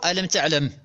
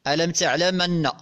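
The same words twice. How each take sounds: First: تعلم ending on a silent meem, no vowel after it; original reading with sukun. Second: تعلمن with the meem opened by a fatha, as taʕlamanna; Warsh reading. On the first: Teacher shows students the sukun reading of "ألم تعلم" with the meem silent. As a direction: say "ألم تعلم" with the final meem stopped dead. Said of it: "بالسكون لأنه فعل مضارع مجزوم". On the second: Teacher reads the Warsh version of "ألم تعلمن" with an open meem and doubled nun. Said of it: "يعني بفتح الميم". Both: Shown as a demonstration.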